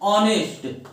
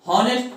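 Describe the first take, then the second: First: The word starts with a vowel sound. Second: The word starts with an h sound. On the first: The speaker calls it right. "एच क्या होता है आपका, silent होता है" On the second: The speaker calls it wrong. "जिसको नहीं पता वो इसको क्या पढ़ता है"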